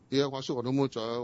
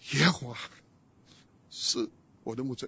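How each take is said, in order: First: It is read quickly and casually, without feeling. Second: It is read slowly and with deep feeling. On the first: The words are read without deep personal meaning. "以前我读…就这样念嘛" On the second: The words are felt deeply during suffering. "一面念一面想，一点点会流下来的"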